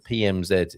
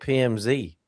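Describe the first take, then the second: First: The last letter is said the British way. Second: The last letter is said the American way. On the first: "in British" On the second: "I'm going to go with the American pronunciation"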